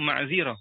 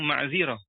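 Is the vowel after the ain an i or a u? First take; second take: i; i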